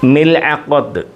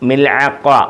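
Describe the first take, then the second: First: The word ends with a pronounced t sound. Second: The word ends in a vowel, no t sound. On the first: "സുക്കൂൻ കൊടുത്ത മിൽഅഖത്ത് എന്നും പറയും" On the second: "മിൽഅഖ ഈ താന് ഉച്ചാരണമില്ല"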